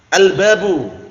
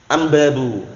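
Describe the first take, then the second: First: The article is said with an l sound. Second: The article is said with an m sound.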